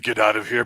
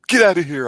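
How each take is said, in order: First: It sounds like put-on sad drunkenness. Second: It sounds hurt.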